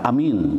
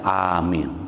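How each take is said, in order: First: The first vowel is kept short. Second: The first vowel is drawn out long. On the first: It means trustworthy or believing. The speaker calls it wrong. "Bukan amin" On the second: It is a heartfelt plea for the prayer to be granted. The speaker calls it right. "Tapi A-nya harus panjang"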